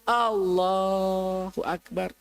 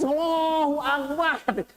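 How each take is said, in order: First: It is said in a low, bowed, humble tone. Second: It is said in a high, upward, proud tone.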